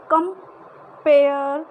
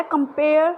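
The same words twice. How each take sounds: First: "compare" slow, with "pair" loud and long; "compare" with the second syllable stretched and louder; stress on PARE. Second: Said in the usual way. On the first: Shown as a demonstration. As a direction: lean hard on "pair" in "compare". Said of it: "pair पे हमने इस ज़्यादा, उच्चारण पे ज़्यादा जोर दिया है". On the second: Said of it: "कम पे शॉर्ट सिलेबल है".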